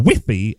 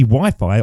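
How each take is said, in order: First: Wi-Fi said the Spanish way, as "wee-fee"; local pronunciation of Wi-Fi. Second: Said in the usual way. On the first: Retold or imitated. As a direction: make both vowels of Wi-Fi short "ee" sounds. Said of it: "as they say over there".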